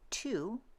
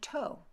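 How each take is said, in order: First: The vowel sounds like 'oo'. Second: The vowel sounds like 'oh'. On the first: This is the modern pronunciation. "instead of saying to" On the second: This is the Middle English pronunciation. "say toe"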